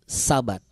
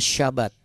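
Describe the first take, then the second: First: It is said in the Indonesian pronunciation. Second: It is said in the original source-language pronunciation. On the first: This is the everyday local form of the word. "atau bahasa Indonesianya Sabat" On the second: This is how the word sounds in its source language. "kalau aslinya Syabat, ya, pengucapannya Syabat"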